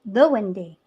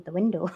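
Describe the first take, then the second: First: "windy" meaning window, with an ee ending; Edinburgh dialect pronunciation. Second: Said in the usual way. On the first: Shown as a demonstration. Clarifying the dialect word for a friend, "windy" ending in ee. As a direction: end "windy" in ee instead of -ow. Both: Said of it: "as in the window".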